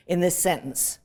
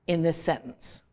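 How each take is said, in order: Both takes have the same delivery.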